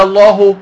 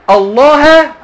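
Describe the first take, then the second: First: الله as "Allāhu"; nominative ending. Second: الله as "Allāha", high and loud; accusative ending. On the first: Teacher offering the other ending, nominative ending. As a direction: end الله on a clear "-hu". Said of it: "لو قلت". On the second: Teacher asking students which ending fits, accusative ending. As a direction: end الله on a clear "-ha". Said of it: "ولو قلت". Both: Shown as a demonstration.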